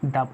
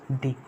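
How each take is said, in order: First: The vowel is a short, weak uh sound. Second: The vowel is a long, clear ee sound. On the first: The next word starts with a consonant sound. "Initial letter का जो sound है वो का है, यानी ये consonant है, तो क्या प्रोनाउंस करोगे?" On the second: The next word starts with a vowel sound. "Initial letter की जो साउंड है वो क्या है? वॉवेल है।"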